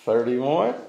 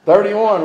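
First: Said in the usual way. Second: Louder, higher call. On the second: Real, not acted. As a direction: call out the number loudly.

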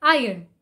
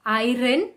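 First: Iron as eye-un, silent R; correct iron. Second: Iron with the R sounded, eye-ron; mispronounced iron; wrong iron. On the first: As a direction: drop the R in iron. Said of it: "the R should not be pronounced". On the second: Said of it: "pronouncing the R". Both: Shown as a demonstration.

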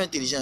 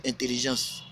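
First: "intelligent" said as the rejected form, ending in a nasal "-an"; wrong form shown. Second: "intelligence" with a full "-ence" ending, said with emphasis; form he insists on. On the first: Streamer correcting his viewers, the rejected word "intelligent". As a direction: give "intelligent" as the form not to use, with the "-gent" ending. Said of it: "On dit pas intelligent". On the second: Streamer telling young rappers to be "intelligence", stressed. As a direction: hammer home "intelligence" as the proper word. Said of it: "on dit intelligence".

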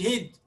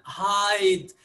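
First: هيد with a short clipped i, like hid; wrong short vowel. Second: هايد said slowly with a long ai; correct long vowel. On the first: Teacher contrasting the wrong form for students, short vowel. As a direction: say هيد short, not هايد. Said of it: "ما قلناش". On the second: Teacher giving students the right form, slow long vowel. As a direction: draw out the ai in هايد. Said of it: "قلنا". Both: Shown as a demonstration.

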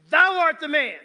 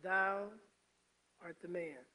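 First: Loud, raised-voice accusation; high, forceful, imagined angry rebuke; accusing shout. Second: Low, soft, halting delivery; hushed, grave alternative to an angry accusation; gentle rebuke. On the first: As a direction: thunder it as a furious prophet's condemnation. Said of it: "imagine the inflection of his voice". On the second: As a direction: say it quietly, pausing after the first word. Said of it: "Or did he say something like". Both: Acted.

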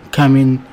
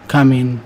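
Both takes have the same delivery.

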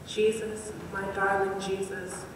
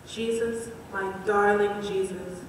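No difference in how they are said.

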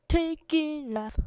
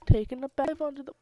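First: Slow sing-song take. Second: Fast rushed take. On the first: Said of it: "take two". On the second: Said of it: "pff, take two". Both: Pretend.

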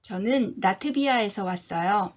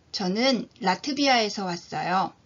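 The two takes are said the same way.

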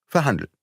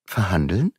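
First: Falling, settled repeat of the word; firm confirmation. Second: A startled rising echo of the word; young man caught off guard, surprised; surprised question. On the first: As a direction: close the question coolly. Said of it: "mit gemäßigter, aber kalter und eigenwilliger Stimme". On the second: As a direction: throw the word back in disbelief. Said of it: "fragte Beautrelet überrascht". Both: A narrator's reading.

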